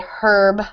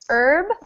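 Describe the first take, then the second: First: The word begins with an audible h sound. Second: The word begins with a vowel, no h. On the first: This is the British or Australian way of saying it. "In British English or English in Australia, elsewhere, they might say herb" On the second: This is the American way of saying it. "In America, the H is silent"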